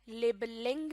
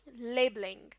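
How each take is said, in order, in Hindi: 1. Stress किसी बाद वाले सिलेबल पर पड़ता है। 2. स्ट्रेस पहले सिलेबल पर पड़ता है। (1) "नहीं" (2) "स्ट्रेस वर्ड के शुरू वाले हिस्से में देना है"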